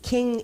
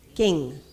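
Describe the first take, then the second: First: The k is said with extra breath. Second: The k is said with little breath. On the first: It sounds like ordinary English. "it's got a little more air behind it" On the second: It sounds like the first Sanskrit ka. "if I were to say it like the first ka in Sanskrit, it would be king"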